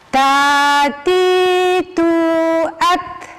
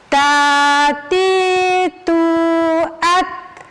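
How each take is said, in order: No difference in how they are said.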